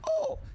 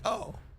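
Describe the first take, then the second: First: It is said with giddy excitement. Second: It is said calmly, without excitement.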